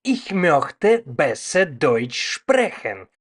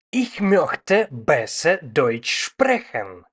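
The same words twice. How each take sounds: The two takes are said the same way.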